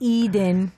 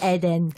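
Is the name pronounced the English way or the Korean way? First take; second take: English; Korean. First: The name is said with an American English pronunciation. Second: The name is said with a Korean pronunciation. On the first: "English, it's Eden" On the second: "In Korean, it's Eden"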